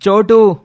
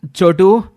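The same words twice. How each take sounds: First: Louder call, falling at the end; a final loud shout of the name. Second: Loud call with a rising end. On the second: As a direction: shout the name across the mountains. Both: Acted. Calling in the snow mountains.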